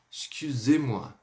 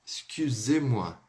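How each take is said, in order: First: Said in the usual way. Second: "Excusez-moi" drawn out slowly, the u pouted; slow demo. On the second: Shown as a demonstration. ("Excusez-moi" bem devagar) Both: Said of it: "mais familiar e mais polida".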